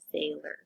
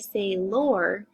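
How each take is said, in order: First: The last syllable is said with a reduced 'er' sound. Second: The last syllable is said with a full 'or' sound. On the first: The speaker calls it right. "We do pronounce it as sailor" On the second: The speaker calls it wrong. "we're not going to say sailor, even though that's our O R"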